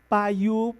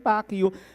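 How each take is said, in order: First: The k at the end of Pak is silent. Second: The k at the end of Pak is pronounced. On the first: The speaker calls it right. "it's silent K. It should be Pa" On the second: The speaker calls it wrong. "So I thought it's pronounced as Pak"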